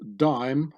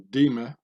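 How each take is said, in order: First: The word is pronounced the English way. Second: The word is pronounced the French way.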